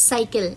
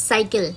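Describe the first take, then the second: No difference in how they are said.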